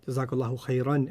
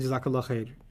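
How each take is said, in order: First: The phrase keeps its endings, finishing with khairan. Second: The phrase ends bare, without the final vowel endings. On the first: The phrase uses the correct grammatical case. The speaker calls it right. "Jazakallahu khairan is Arabic" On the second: The speaker does not know Arabic grammar. The speaker calls it wrong. "don't say Jazakallah khair because they know that's not Arabic"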